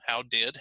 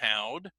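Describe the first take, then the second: First: "Did" is said as a full word. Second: "Did" is reduced to a d sound.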